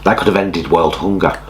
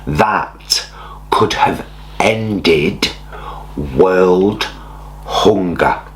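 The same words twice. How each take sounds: First: It is spoken at a normal pace. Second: It is spoken slowly and deliberately.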